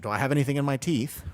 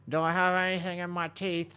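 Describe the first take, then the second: First: Said in the usual way. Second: High monotone through bared teeth; mock self-check with teeth bared. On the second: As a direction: hold the question up on one pitch, teeth showing. Repeats question while baring teeth.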